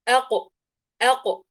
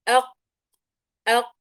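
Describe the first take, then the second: First: The qaf ends with a short echoing bounce. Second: The qaf stops cleanly with no bounce. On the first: "ثم أق أق" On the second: "تتدرب على المخرج أول أق أق بهذه الطريقة"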